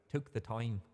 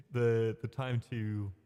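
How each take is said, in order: First: Mock Irish vowel on "time"; Irish accent. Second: Said in the usual way. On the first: Shown as a demonstration. Streamer teasing own slip, mock Irish accent. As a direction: echo your slip in a light Irish accent. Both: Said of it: "that sounded very Irish".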